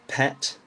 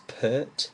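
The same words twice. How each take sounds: First: "pet" with a short E, no R; English "pet", short E and clear T; short vowel. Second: "pert" with a long ER vowel, R silent; English "pert", long vowel, R not pronounced; R-changed vowel. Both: Shown as a demonstration. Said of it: "changes the vowel sound".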